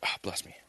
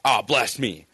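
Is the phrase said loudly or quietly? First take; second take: quietly; loudly. First: The phrase is said quietly. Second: The phrase is said loudly. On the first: "It's just like" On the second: "it's not like I'm real loud, like"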